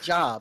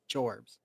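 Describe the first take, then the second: First: The word is said without an R sound. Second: The word is said with an R sound. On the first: "it's written like jobs" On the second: "but it's pronounced Jorbs"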